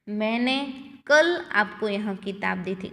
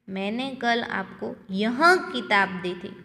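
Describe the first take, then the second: First: The stress is on कल. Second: The stress is on यह.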